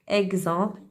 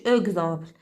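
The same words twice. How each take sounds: First: The first vowel is an open 'eh' sound. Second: The first vowel is a weak 'uh' sound. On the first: The speaker calls it right. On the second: The speaker calls it wrong.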